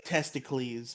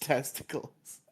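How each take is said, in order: First: Testicles said as test-i-cleez; mock misreading. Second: Said in the usual way. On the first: Shown as a demonstration. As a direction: say testicles to rhyme with Hercules, ending in -eez. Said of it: "It looks like testicles".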